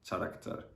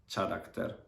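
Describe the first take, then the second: Both takes have the same delivery.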